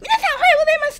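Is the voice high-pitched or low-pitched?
high-pitched. It is said in a high-pitched voice.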